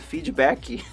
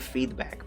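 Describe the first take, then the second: First: It ends with an extra vowel after the consonant. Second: It ends on the consonant with no extra vowel. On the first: "People say feedbacky" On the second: "People don't say feedback"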